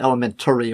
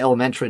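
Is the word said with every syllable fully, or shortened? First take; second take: fully; shortened. First: The word is said sounding out every syllable. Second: The word is said with syllables run together. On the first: The speaker calls it wrong. "not elementary or whatever weird word you're using" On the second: The speaker calls it right. "I say elementary"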